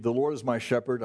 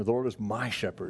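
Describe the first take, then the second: First: Said in the usual way. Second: "my" given the emphasis, "shepherd" following; stress on MY. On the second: Shown as a demonstration. Preacher repeats the psalm line to show relationship, stressing "my". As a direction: lean on the word "my". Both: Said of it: "I, I, I emphasize it".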